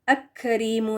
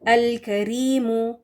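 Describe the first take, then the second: First: The L merges into a doubled K sound. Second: The L sound is clearly pronounced before karimu. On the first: The speaker calls it wrong. "इसको अक करीमु नहीं पढ़ेंगे" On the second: The speaker calls it right. "लाम ड्रॉप नहीं होगा"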